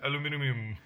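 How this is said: It is said with five syllables, British style.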